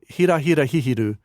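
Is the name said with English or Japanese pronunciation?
Japanese. The name is said with Japanese pronunciation. "In Japanese, it's called"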